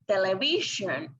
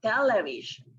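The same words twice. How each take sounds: First: "television" stressed on the third syllable. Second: "television" stressed on the first syllable; stress on TEL. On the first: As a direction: say "television" as tele-VI-sion. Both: Shown as a demonstration. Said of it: "where to put the stress".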